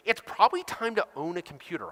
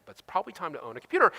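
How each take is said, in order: First: Said in the usual way. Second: Fast, tongue-in-cheek repeat of the line; wry repeat. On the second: Shown as a demonstration. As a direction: toss it off as an obvious renegade idea. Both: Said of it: "I know, renegade idea".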